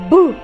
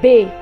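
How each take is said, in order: First: Only the bare consonant sound is produced. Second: The consonant is said with a following vowel. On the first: "le son c'est B" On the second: "mais ça se lit comme B"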